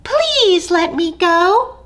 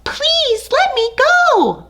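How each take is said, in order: First: Pleading tiny mouse; begging mouse. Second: High squeaky cry for mercy; desperate tiny mouse plea. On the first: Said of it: "Mouse begged". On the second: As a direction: cry out to be let go. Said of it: "Mouse cried". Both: Acted.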